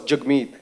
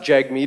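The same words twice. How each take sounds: First: The name is said in its native way. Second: The name is said in an anglicized way. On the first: The speaker calls it right. "No, it's Jagmeet" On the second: The speaker calls it wrong. "even we're gu- guilty of it"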